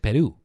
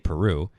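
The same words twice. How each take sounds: First: It is said with a Spanish accent. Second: It is said with an English accent. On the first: This is how people from Peru say it. "They say Peru" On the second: This is how English speakers say it. "we say Peru"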